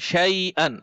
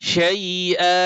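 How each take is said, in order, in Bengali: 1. শব্দটি n ধ্বনি দিয়ে শেষ হয়। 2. শব্দটি স্বরবর্ণ দিয়ে শেষ হয়, n ছাড়া। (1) "হামজা দুই জবর আন শাইআন" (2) "ওকফ করলে হবে শাইআ"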